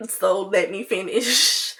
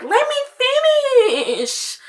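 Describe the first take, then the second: First: Slow, at normal pitch, with "finish" stretched; mild bratty insistence. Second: Very high, drawn-out bratty whine. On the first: Bratty friend explaining herself, slow mildly insistent drawl. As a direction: drag out "finish" without raising the pitch. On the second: Bratty friend refusing to hand the phone back, high drawn-out whine. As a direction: stretch "finish" out high like an annoying brat. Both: Retold or imitated. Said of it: "'Cause I'm annoying and I'm a brat".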